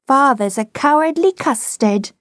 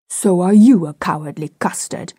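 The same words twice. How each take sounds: First: High, sing-out playground taunt; taunting child. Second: Retorting father. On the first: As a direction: tease father in a high child's voice. Small boy taunts his father. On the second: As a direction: throw the taunt back, stressing "you". Father throws the taunt back. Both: A narrator's reading.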